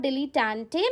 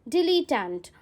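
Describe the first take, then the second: First: "dilettante" with the final e sounded, ending in "-tay"; mispronounced dilettante. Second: "dilettante" in three syllables, dilly-tahnt, with a silent final e; slow, careful "dilettante" said as dilly-tant; corrected pronunciation. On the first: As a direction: say "dilettante" wrongly as dilly-tan-tay, four syllables. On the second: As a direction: end "dilettante" firmly on the t, no vowel after it. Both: Shown as a demonstration. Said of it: "many of you pronounce it wrong".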